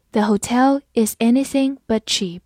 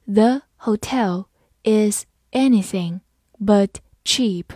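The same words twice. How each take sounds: First: Said in the usual way. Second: Slow, careful word by word; slow reading. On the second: Shown as a demonstration. Teacher modelling for students, slow and careful. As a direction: read it out slowly and clearly. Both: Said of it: "好，慢慢来读。".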